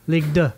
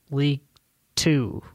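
First: It is said with a put-on French accent. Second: It is said with a plain English accent.

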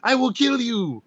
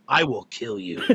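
First: It is said in a light, joking tone. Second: It is said in a flat, serious tone.

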